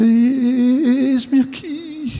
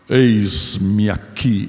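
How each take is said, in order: First: It is said in a hesitant, frightened way. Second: It is said in a poised, confident way. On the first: He accepts reluctantly and in fear. The speaker calls it right. "Ele está apavorado" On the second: He volunteers proudly and eagerly. The speaker calls it wrong. "todo bonito, elegante"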